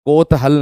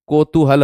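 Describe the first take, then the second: First: कोतहल said as the wrong form, without the long ऊ. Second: कोतूहल said with a clear long ऊ in the middle; correct form. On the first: Teacher showing students the misspelling, plain. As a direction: give कोतहल as the mistake to avoid. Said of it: "नहीं होता". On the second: Teacher giving students the correct word, plain. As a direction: give कोतूहल as the right form. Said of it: "होता है". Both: Shown as a demonstration.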